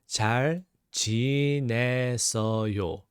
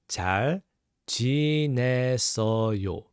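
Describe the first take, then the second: Both takes have the same delivery.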